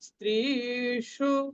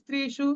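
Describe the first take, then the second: First: The first vowel is long. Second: The first vowel is short. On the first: The speaker calls it right. "এটা দীর্ঘ হবে" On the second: The speaker calls it wrong. "এরকম বলবো না"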